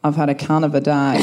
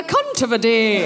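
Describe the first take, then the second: First: Broad low Australian accent, laughing. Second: Put-on prim Edinburgh schoolmistress Scottish accent; a light Miss Jean Brodie Scottish accent; posh Scottish accent. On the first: Shown as a demonstration. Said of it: "in my original Australian accent". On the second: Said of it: "my Miss Jean Brodie".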